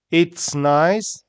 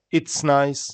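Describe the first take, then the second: First: 'it's nice' rising on 'nice', held open; careful, lifted 'it's nice'; careful spelled-out form. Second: 'it's nice' joined, closing without a lift; 'it's nice' as one finished phrase; natural linked pronunciation. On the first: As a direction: say 'it's nice' deliberately, pitch up at the end. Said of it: "how we spell it". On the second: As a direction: run 'it's' into 'nice' and settle. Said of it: "how we say it". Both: Shown as a demonstration.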